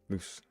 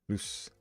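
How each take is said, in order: The two takes are said the same way.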